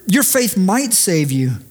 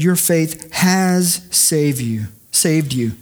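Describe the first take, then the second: First: Said in the usual way. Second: Slow, weighty declaration, leaning on "has saved"; emphatic statement. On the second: Shown as a demonstration. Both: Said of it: "That's an emphatic statement".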